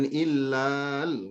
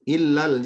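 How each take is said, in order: First: The middle vowel is drawn out long. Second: The middle vowel is short, moving straight on. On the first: The speaker calls it wrong. "Jangan illal. Nggak boleh" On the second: The speaker calls it right.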